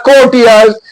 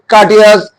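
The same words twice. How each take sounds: First: Courteous as "KOH-tee-uz", Indian style; Indian-accent courteous. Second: Courteous as "KAH-tee-us", no R; British-American-style courteous. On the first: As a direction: round "koh" opening on courteous, drawn out slowly. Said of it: "in Indian accent". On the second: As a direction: say courteous the British way, R dropped, with an "ah" vowel. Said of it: "British American accent is totally different". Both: Shown as a demonstration.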